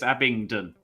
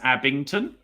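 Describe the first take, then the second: First: The last syllable starts with a d sound. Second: The last syllable starts with a t sound. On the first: The speaker calls it right. "So just to make it clear, it's Abingdon" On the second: The speaker calls it wrong. "they kept mispronouncing it as Abington"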